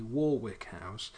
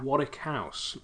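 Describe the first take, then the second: First: "Warwick House" said WOR-wick, every letter sounded; spelled-out pronunciation. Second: "Warwick House" said WAR-ick, silent middle w; "Warwick" as WOR-ick with no w sound; British pronunciation. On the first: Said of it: "it's, it's Warwick". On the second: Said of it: "or quite possibly Warwick House". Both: Shown as a demonstration.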